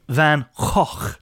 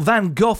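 First: Van Gogh is said the non-British way. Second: Van Gogh is said the common British way. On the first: "the proper way to say it is Van Gogh" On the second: "as a lot of Brits say"

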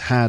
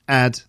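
First: The h at the start is pronounced. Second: The h at the start is dropped.

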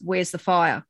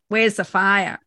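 First: It is said in a normal everyday voice. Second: It is said in a put-on tough-guy voice.

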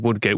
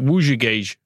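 First: The name is said with an English pronunciation. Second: The name is said with a Brazilian Portuguese pronunciation.

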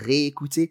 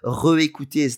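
First: The first vowel is a closed 'ay' sound. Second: The first vowel is a neutral 'uh' sound. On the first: The speaker calls it right. "got the E acute" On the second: The speaker calls it wrong. "doesn't sound right"

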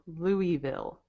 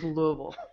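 First: The name is said with full, distinct syllables. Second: The name is slurred with little tongue movement. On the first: This is how people outside the area say it. The speaker calls it wrong. "Some people will say Louisville" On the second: This is how locals in Kentucky say it. The speaker calls it right. "We do not say that. It is Louisville"

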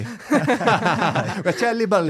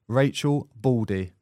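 First: The name is said with an exaggerated Italian pronunciation. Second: The name is said with a plain English pronunciation. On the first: "go overboard on the pronunciation" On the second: "I didn't want to go overboard on the pronunciation"

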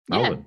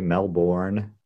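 First: It is said the local Australian way, clipped. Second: It is said in an American accent, every part pronounced. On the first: "Do we say that?" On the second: "Americans seem to say it the most phonetically right"

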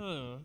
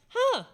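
First: The huh sounds negative or dismissive. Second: The huh sounds positive and interested.

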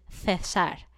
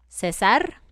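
First: It begins with a th sound, Spanish style. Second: It begins with an s sound.

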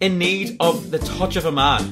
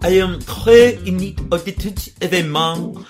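First: It is read in the speaker's plain accent. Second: It is read in a put-on French accent.

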